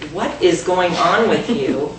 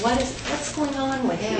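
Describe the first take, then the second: First: It sounds accusing and judgmental. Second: It sounds gentle and caring.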